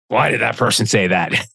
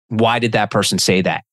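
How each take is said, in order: First: The question sounds annoyed and accusing. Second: The question sounds calm and genuinely curious. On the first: The speaker is judging the other person. The speaker calls it wrong. "Instead of, ... it's all in the phrasing" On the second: The speaker wants to understand the other person. The speaker calls it right. "ask yourself a question"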